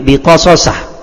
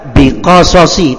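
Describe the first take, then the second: First: The word ends with an a vowel. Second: The word ends with an i vowel. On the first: The speaker calls it wrong. "tidak akan mungkin biqasasah" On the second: The speaker calls it right. "Maka dibaca biqasasi"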